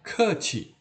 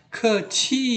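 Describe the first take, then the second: First: "keci" with falling tone and light ending; correct tone. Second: "keci" with the last syllable drawn out high; mispronounced "keci", stretched high ending; wrong tone. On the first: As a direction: drop the pitch through "keci", keep the end short. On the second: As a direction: hold the end of "keci" long and high, without letting it drop. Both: Shown as a demonstration. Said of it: "Jangan dibaca keci, salah".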